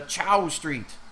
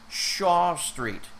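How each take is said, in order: First: The name starts with ch and rhymes with cow. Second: The name starts with sh and rhymes with saw. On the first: A non-native speaker mispronounced the name. The speaker calls it wrong. "but she was pronouncing it as Chow" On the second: This is the usual way to say the name. The speaker calls it right. "She was asking for Shaw Street"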